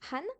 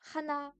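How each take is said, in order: First: The word is cut short to one syllable. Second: The word is said in full, two syllables. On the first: The form used when saying an age. "on va dire han" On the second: The plain counting form. "Au lieu de dire hana"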